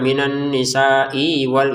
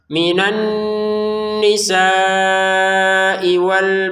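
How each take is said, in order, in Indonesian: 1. Huruf i di akhir dipanjangkan sebelum wal. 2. Huruf i di akhir pendek dan menyambung ke wal.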